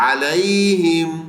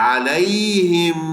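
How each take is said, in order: No difference in how they are said.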